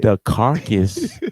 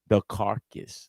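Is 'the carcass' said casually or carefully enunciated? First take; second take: enunciated; casual. First: The words are said with careful, crisp articulation. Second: The words are said in a casual, relaxed way.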